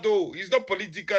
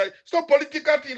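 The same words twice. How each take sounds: First: Softer, mocking echo of the denial; mock quote. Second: Said in the usual way. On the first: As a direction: quote their claim back with quiet scorn. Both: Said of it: "you are here saying that".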